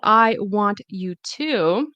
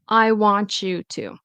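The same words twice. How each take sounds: First: The T and Y are pronounced separately. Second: The T and Y merge into a ch sound. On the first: "instead of" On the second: "the T and the Y will turn into a ch sound"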